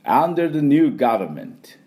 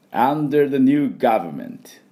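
First: 「under the new government」 slow with a clear v in 「government」; slow model phrase. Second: 「under the new government」 slow, 「new」 stressed, clear v; slow model phrase. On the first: Teacher slowly models the phrase with a v. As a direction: lean on 「new」, bite the v. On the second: Teacher repeats the phrase slowly for the class. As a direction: draw out each word, bite the v in 「government」. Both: Shown as a demonstration. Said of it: "じゃあ行きますよ".

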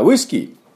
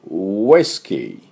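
First: ウイスキー said flat, Japanese-style; wrong pronunciation. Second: ウイスキー slow, lips rounded for the W; English whisky. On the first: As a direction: say ウイスキー the katakana way. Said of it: "ちょっと発音が違いますね". (カタカナ読みのウイスキー) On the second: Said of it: "この音にするにはどうしたらいいか". (唇をすぼめたウイスキー) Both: Shown as a demonstration.

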